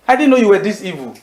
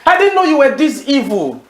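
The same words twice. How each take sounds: First: Said in the usual way. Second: Higher, indignant "I didn't know you were this evil"; scolding quote. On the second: Acted. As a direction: lift the pitch on "didn't" in reproach. End of Paul quote, repeated.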